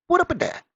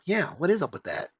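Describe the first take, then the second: First: Very high, louder goofy echo; silly falsetto. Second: Higher-pitched curious viewer; wondering aloud, pitch lifted on the question; puzzled agreement. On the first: Reviewer comically echoing the viewer's question, silly high voice. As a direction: squeak it out as a joke. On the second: Imagined viewer agreeing with the reviewer, mildly puzzled. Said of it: "they kinda go". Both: Acted.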